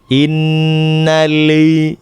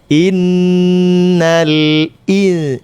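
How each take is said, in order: First: The glottal stop is slurred into the vowel. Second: The glottal stop before i is clearly articulated. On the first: The speaker calls it wrong. "tidak jelas" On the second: The speaker calls it right. "Jadi harus jelas il"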